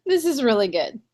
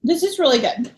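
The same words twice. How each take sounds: First: Said in the usual way. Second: Whispered, almost no voice. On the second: Real, not acted. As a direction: murmur it like a secret. Repeats line, whispered then plain.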